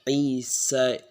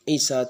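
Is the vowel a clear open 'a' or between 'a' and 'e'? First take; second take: between; open a. First: The final vowel sits between 'a' and 'e'. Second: The final vowel is a clear open 'a'. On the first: "jika kita taklilkan itu menjadi uh" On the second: "yang mana Isa tersebut fathah"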